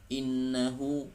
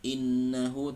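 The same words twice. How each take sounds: Both takes have the same delivery.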